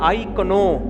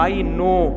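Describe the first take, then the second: First: The k is sounded, said as k-no. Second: The k is silent, said as no. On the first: The speaker calls it wrong. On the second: The speaker calls it right.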